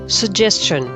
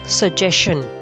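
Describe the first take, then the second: First: It is said with a standard, non-Indian pronunciation. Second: It is said with an Indian English pronunciation. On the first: The speaker calls it right. "the most acceptable way to pronounce this word" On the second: The speaker calls it wrong. "can be considered as Indian pronunciation"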